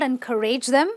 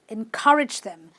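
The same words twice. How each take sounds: First: The ending is said with an 'ay' sound. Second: The ending is said with a short 'i' sound. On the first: The speaker calls it wrong. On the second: The speaker calls it right.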